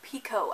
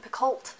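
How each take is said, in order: First: The name ends in a plain 'oh' sound. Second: The name ends in an 'olt' sound. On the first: The speaker calls it right. "it is pronounced Pico" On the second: The speaker calls it wrong. "I've been calling saying Picoult like most of the month"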